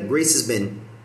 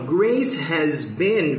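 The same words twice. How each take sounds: First: The words run together quickly and reduced. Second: Each word is said fully and separately.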